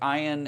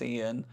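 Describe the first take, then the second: First: The name starts with a non-'ee' vowel sound. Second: The name starts with an 'ee' vowel sound. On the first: The speaker calls it wrong. "people have been pronouncing my name wrong" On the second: The speaker calls it right. "The I sounds like an E"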